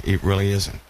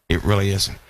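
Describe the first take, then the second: First: "It" leaned on, "really isn't" falling after; firm "It really isn't" with weight on "It"; stress on IT. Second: "really" leaned on, "It" left light; insistent "It really isn't" with weight on "really"; stress on REALLY. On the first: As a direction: push the first word "It" and let the rest drop. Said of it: "repeats the phrase, stressing "It". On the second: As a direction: hit "really" and let "isn't" fall away. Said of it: "repeats it, stressing "really". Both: Real, not acted.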